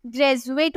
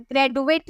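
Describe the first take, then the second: First: Said in the usual way. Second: ग्रेजुएट with a hard "d" in place of "j"; wrong d sound. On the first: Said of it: "बोलते हैं". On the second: Shown as a demonstration. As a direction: say "gre-du-ate" for ग्रेजुएट. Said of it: "नहीं बोलते".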